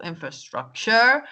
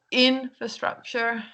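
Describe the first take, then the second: First: InfraSTRUCture, stress late on STRUC; slow "infrastructure", leaning on STRUC, rising at the end; wrong word stress. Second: INfrastructure, stress on the first syllable; correct word stress. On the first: Teacher showing learners the common mistake, wrong word stress. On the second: Teacher giving learners the other version, correct word stress. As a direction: stretch out IN in "infrastructure", then let the rest follow. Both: Shown as a demonstration. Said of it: "word stress on the wrong syllable".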